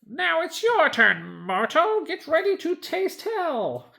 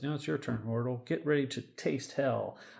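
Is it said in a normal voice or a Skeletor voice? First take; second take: Skeletor voice; normal voice. First: It is said in a Skeletor impression. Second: It is read in his normal voice.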